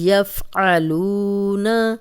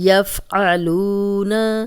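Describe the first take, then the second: The two takes are said the same way.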